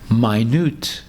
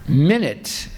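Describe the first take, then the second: First: The stress is on the second syllable. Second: The stress is on the first syllable. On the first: It means very small. "it means very small" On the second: It means a unit of time. "It means one minute in time"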